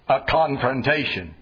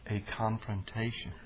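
First: The word is said hard and sternly. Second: The word is said softly and gently. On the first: It is a hostile clash between opponents. The speaker calls it wrong. "Not a confrontation" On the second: It is a loving effort to help someone. The speaker calls it right. "say it softer"

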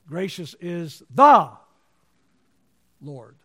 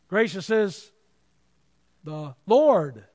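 First: The word "the" carries the main stress. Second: The word "Lord" carries the main stress. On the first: There is only one Lord. "There's only one Lord" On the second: The particular word for Lord matters. "there's a lot of words for Lord"

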